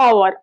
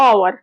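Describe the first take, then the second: Both takes have the same delivery.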